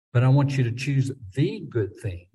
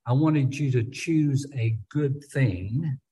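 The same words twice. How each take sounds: First: "the" said as an emphatic "thee" before good thing; correcting version, weighting "the" with a long ee; stress on THE. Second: "a" set apart as a full "ay" before good thing; slow, measured, with "a" spelled out as its own word; the rejected version, weighting "a"; stress on A. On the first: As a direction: hit "the" as THEE, the one and only. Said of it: "putting an emphasis on that word good". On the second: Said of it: "I don't think he's saying". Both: Shown as a demonstration.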